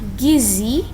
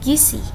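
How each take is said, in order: First: The middle consonant is a z sound. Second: The middle consonant is an s sound. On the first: The speaker calls it right. "yang benar gizi" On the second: The speaker calls it wrong.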